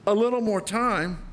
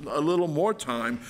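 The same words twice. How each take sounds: First: Mocking king. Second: Said in the usual way. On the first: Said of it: "Can you hear the king's laughter?". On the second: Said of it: "The servant did not need".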